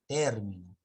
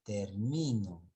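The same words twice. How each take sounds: First: "término" with TÉR punched; "término", strong TÉR, weaker ending; stress on TÉR. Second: "termino" with MI drawn out; "termino", weight on MI, falling at the end; stress on MI. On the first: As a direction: lean hard on the first syllable of "término". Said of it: "Ahí sí es término". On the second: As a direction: lean on the middle syllable of "termino". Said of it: "Acá es". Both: Shown as a demonstration.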